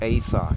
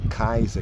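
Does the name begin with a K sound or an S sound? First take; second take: S sound; K sound. First: The name begins with a soft S sound. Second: The name begins with a hard K sound. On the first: This is how the name is said today. "people say Caesar today" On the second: This is how the name was said in ancient times. "back then his name was pronounced as Kaiser"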